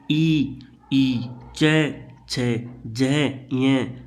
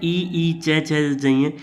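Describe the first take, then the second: First: "ई, ई, चे, छे, जह" drawn out very slowly, each one held; palatal sounds demo. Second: Said in the usual way. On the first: Shown as a demonstration. Teacher to students, sounding out "चे, छे" slowly from the palate. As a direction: stretch "चे, छे" slowly so students feel the tongue touch the palate. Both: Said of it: "जैसे बोल के देखो".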